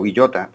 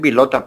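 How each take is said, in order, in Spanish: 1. La consonante del medio es un sonido parecido a la Y. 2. La consonante del medio es un sonido L simple. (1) "Aquí en, en Colombia es Villota" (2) "en Estados Unidos me dicen Vilota"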